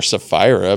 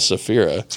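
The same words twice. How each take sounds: First: Sapphira said suh-FYE-ruh, with a long I; alternate pronunciation. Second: Sapphira said suh-FEER-uh, with a short I; spelled-out pronunciation. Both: Shown as a demonstration. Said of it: "but it's spelled Sapphira".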